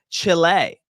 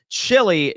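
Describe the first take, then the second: First: "Chile" said as chill-AY; corrected Chile pronunciation. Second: "Chile" said as CHILL-ee; mispronounced Chile. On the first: Streamer correcting the town name for chat, pronounced chill-AY. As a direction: end "Chile" on an ay sound. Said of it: "It is pronounced Chile". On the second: Streamer reading viewer's town wrong on purpose, mispronounced as CHILL-ee. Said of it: "Just so you can mispronounce it". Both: Shown as a demonstration.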